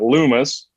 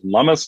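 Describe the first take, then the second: First: The first vowel differs from the vowel in 'hummus'. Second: The first vowel sounds like the vowel in 'hummus'. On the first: The speaker calls it wrong. "not Loomis" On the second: The speaker calls it right. "You pronounce it Lummis, Lummis like hummus"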